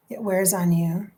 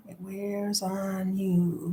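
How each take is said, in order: First: Said in the usual way. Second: Softer and very slow, letting it sink; heavy, slowed, soft repetition; slow fading softness. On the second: Real, not acted. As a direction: let the words drag down and fade.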